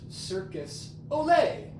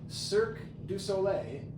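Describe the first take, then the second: First: The middle 'du' is blended away into the words. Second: The middle 'du' is heard as a separate syllable. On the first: The speaker calls it wrong. "is not pronounced" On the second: The speaker calls it right. "There's a de in there. It's it's separated"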